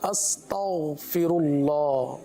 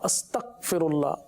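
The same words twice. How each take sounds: First: The middle consonant is a full, throaty gh sound. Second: The middle consonant is a hard k or g stop. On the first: The speaker calls it right. "ये गाफ नहीं है बल्कि गैन है, इसको पूरा अदा करेंगे" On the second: The speaker calls it wrong. "काफ की सी आवाज़ या गाफ की सी आवाज़"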